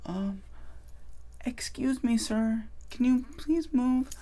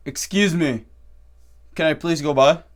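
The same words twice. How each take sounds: First: High, very soft, hesitant plea; timid request. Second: Said in the usual way. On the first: Acted. Shy person asking someone in line to move, timid. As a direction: squeak it out meekly, afraid to bother anyone. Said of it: "instead of being like".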